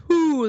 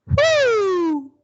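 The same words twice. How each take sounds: First: "whoo" down in speaking range; low whoo. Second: "whoo" lifted into head voice; high whoo. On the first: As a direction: keep the "whoo" down in chest voice. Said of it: "that's down there". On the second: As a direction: flip the "whoo" up high and let it fall. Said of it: "I want you to go whoo". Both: Shown as a demonstration.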